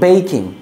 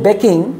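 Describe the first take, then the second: First: The first vowel is a long 'ay' sound. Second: The first vowel is a short 'e' sound. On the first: The speaker calls it right. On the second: The speaker calls it wrong.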